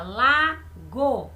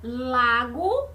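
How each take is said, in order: First: "Lago" split as la, pause, go; syllable by syllable. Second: Said in the usual way. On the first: Shown as a demonstration. Teacher counting mouth openings for pupils, "Lago" broken into two syllables. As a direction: open the mouth twice for "Lago", la and then go. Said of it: "Quantas vezes eu abri pela boca pra falar?". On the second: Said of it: "Olha aqui o exemplo".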